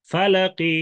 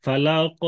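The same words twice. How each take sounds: First: Higher, chanted "ফালাকি" with light final i; rum stop. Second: "ফালাক" ending on a vowelless, bouncing q; sakin stop. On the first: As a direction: sound a light kasra ending "ফালাকি". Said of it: "এই রুম করে ওয়াকফ". ("ফালাকি"-র শেষে হালকা জের) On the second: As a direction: close "ফালাক" without any final i. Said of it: "ওয়াকফ করলেন সাকিন করে". ("ফালাক"-এর ক্বফে সাকিন) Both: Shown as a demonstration.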